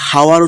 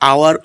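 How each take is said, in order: First: The word begins with an audible h sound. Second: The word begins directly with a vowel sound. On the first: The speaker calls it wrong. "এটা হাওয়ার উচ্চারণ একদম হবে না" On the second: The speaker calls it right. "এটা উচ্চারণ হবে আওয়ার"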